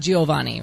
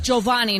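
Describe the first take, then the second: First: The opening 'Gi' is split into two syllables. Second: The opening 'Gi' is a single 'j' sound. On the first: The speaker calls it wrong. "not Giovanni" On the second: The speaker calls it right. "like Giovanni"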